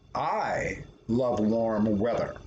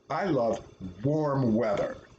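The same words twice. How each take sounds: First: The stress is on "I". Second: The stress is on "warm".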